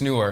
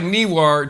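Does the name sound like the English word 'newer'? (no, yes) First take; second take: yes; no. First: It sounds just like the word newer. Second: It does not sound like the word newer. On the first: The speaker calls it right. "it's newer. That's how they pronounce it" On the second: The speaker calls it wrong. "it looks like Newar to us English speakers"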